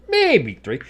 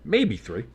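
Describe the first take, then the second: First: High, louder, drawn-out MAYBE; hammed-up repeat. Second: Said in the usual way. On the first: Streamer joking about the yardage gained, hammed-up high MAYBE. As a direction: stretch MAYBE way up high, then drop.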